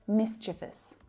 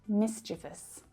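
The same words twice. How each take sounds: The two takes are said the same way.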